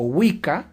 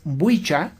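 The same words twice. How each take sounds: First: Said in the usual way. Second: "wicca" said WEE-cha, with a ch; old English pronunciation. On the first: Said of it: "la palabra Wicca se pronunciaba como". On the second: Shown as a demonstration. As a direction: give "wicca" a ch in place of the k. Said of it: "se pronunciaba como".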